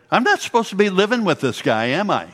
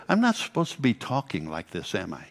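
First: Higher, faster, ending in a laugh; a sheepish question that dissolves into a laugh; Beth, laughing sheepishly. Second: Said in the usual way. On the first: Retold or imitated. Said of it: "she would say".

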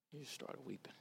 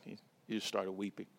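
First: Near-silent, much softer repeat; hushed, grieving repetition. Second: Said in the usual way. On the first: Real, not acted. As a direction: let it fade to almost nothing. Repeats line, fading each time.

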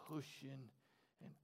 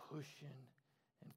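No difference in how they are said.

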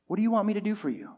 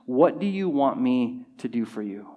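First: Quicker, softer, higher asking; gentle question. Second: Measured question, lower in pitch; deliberate question. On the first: Jesus asking the blind man, soft and quick. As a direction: ask it lightly and softly, in one run. Same question repeated more lightly. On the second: Jesus asking the blind man, deliberate and measured. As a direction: ask it deliberately, letting each word land. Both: Acted.

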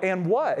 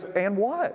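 First: Louder, falling, pressing the point; insistent echo. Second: High, rising, baffled echo; puzzled question. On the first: The pastor presses the visitor, insistent. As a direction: throw it right back at him. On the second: The visitor asks the pastor back, baffled. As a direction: ask it back with no idea. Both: Retold or imitated.

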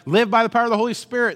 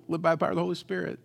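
First: Fast, loud, high pulpit slogan; preacher's stock line. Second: Quick, offhand recital of the slogan; stock line repeated. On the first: Pastor telling the crowd the slogan, fast and loud. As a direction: rattle off the slogan like a confident preacher. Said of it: "I told everybody". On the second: Pastor admitting he only told them, quick and offhand. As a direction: toss off the slogan at normal volume. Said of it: "I told them". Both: Retold or imitated.

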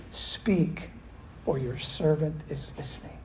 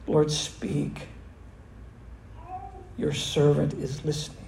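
First: Reverent softness. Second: Sincere whispered prayer. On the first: Retold or imitated. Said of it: "Eli says this". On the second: Pretend. The church praying Samuel's words, whispered sincerely. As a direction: let it fall to a near whisper of surrender. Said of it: "say with all sincerity".

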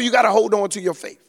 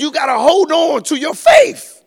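First: Said in the usual way. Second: High, loud call to hold on; shouted exhortation. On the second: Acted. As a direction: belt it out at the congregation. Preacher's climax line.

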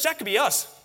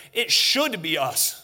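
First: Said in the usual way. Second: Slow, deliberate weight on "should"; "should" stressed firmly, the whole line slowed. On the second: Shown as a demonstration. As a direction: lean hard on "should", drawing the line out. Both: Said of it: "let me say that different".

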